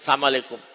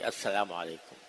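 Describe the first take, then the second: First: It is clipped into one short slurred word. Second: It is said fully, with every syllable clear. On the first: The speaker calls it wrong. "ऐसा बिगाड़ कर नहीं" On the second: The speaker calls it right. "पूरे वजाहत के साथ कहना चाहिए"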